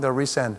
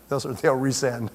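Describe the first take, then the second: First: Said in the usual way. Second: Slowed, chuckling through it; laughing. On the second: Real, not acted. Speaker repeating the joke about resent emails, laughing. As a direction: laugh it out slowly.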